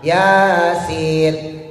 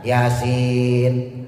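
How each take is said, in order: First: Both vowels are held for the same length. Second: The first vowel is short, the second long. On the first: "ya sama sinnya digabungin, panjangnya sama" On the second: "ya pendek, sinnya yang panjang"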